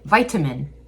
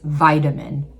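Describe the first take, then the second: First: The middle consonant is a clear T. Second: The middle consonant sounds like a D. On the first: "some people will really pronounce the T like vitamin" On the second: "most people turn the T into a D"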